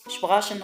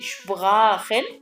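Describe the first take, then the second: First: The middle consonant is a 'sh' sound. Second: The middle consonant is a throaty 'kh' sound. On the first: The speaker calls it wrong. "شبراشن غلط" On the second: The speaker calls it right. "دي شبراخن مش شبراشن"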